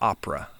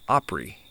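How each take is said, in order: First: The word ends in an 'uh' sound. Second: The word ends in a long 'ee' sound.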